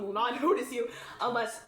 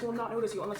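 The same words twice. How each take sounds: First: It is spoken in a loud, projected stage voice. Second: It is spoken at a normal, unprojected volume.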